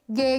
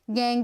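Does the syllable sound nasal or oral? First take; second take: oral; nasal. First: The vowel is clear and oral, not nasal. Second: The vowel is nasal, with air through the nose. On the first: The speaker calls it right. "Dificilmente esse som vai ser nasal" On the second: The speaker calls it wrong. "que é en e não e"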